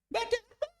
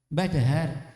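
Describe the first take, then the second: First: It is said in a high-pitched voice. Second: It is said in a low-pitched voice. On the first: The elderly listener cannot hear it. The speaker calls it wrong. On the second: The elderly listener can hear it. The speaker calls it right.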